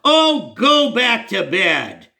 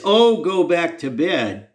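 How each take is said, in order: First: Slow, high, disgusted brush-off; "Oh, go back to bed" drawn out high and scornful; imitating the pastor's slow, scornful wave-off; disgusted dismissal. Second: Mock disgust. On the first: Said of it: "he waved his arm disgustedly". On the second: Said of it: "and that's what I get?".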